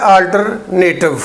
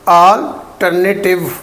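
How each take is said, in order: First: अल्टरनेटिव as two chunks, alter-native; "NAY-tiv" ending in अल्टरनेटिव; common mispronunciation. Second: अल्टरनेटिव slowly in syllables, al-ter-na-tiv; slow, broken-up अल्टरनेटिव with a separate tiv; correct alternative. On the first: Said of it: "आमतौर पे बोला जाता है". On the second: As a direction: say अल्टरनेटिव with a short na, not "native". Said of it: "नेटिव नहीं कहना इसको". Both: Shown as a demonstration.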